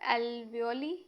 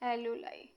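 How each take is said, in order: First: The word ends with an 'ee' sound. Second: The word ends with an 'eye' sound. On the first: "एल्वियोली भी कुछ लोग pronounce करते हैं" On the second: "एल्यूलाई ये बोलेंगे"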